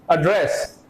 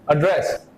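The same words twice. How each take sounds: The two takes are said the same way.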